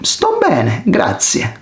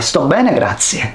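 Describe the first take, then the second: First: The words are spoken slowly and carefully. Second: The words are spoken a little faster. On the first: "Answer slowly" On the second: "Answer again a little faster"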